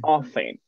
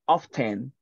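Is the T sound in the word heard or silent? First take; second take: silent; heard. First: The T sound is silent. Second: The T sound is clearly pronounced. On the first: This is the usual American form. "the T is not pronounced" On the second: This is more like British English. "The T is very, very emphasized"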